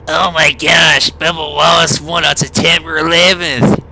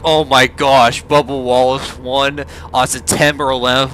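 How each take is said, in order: First: It is said in a put-on imitated voice. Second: It is said in the speaker's normal voice.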